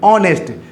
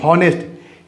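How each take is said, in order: First: The word begins directly with a vowel sound. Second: The word begins with an audible h sound. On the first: This is how the word is actually spoken. The speaker calls it right. "एच को नहीं पढ़ते हैं, ओ से शुरू करते हैं" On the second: This is how the word is spelled. The speaker calls it wrong. "लिखा जाता है हॉनेस्ट"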